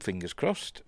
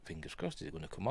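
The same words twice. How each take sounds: First: Said in the usual way. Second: Whispered hopeful aside. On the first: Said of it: "fingers crossed (repeated whispered)". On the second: Real, not acted. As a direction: breathe it under your breath. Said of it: "fingers crossed (repeated)".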